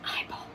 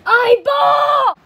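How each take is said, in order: First: Soft, tentative call; hushed first call; quiet call. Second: High, loud yell; loud, drawn-out shout; shouted call. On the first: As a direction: call out under your breath. Calling out, first quiet try. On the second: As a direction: holler the name at full voice. Calling out again, much louder. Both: Acted.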